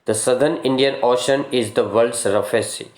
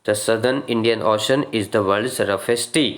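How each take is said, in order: The two takes are said the same way.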